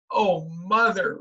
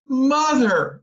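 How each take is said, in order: First: Slow, dismayed wail; drawn out in dismay; girl repeats it slowly, dismayed at the cake. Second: A high, loud horrified cry; girl cries out to mother, horrified. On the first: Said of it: "repeated Beezus". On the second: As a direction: cry out at the sight in the oven. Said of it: "she cried, horrified". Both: A narrator's reading.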